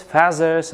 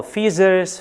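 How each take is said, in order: First: FEATHERS with an open a, "FAZ-ers"; variant pronunciation. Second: FEATHERS with a long ee, "FEE-zers"; variant pronunciation. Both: Shown as a demonstration. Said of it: "British pronunciation".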